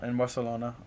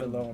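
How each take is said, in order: First: The c is said as a plain s. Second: The c is said with a th-like lisp.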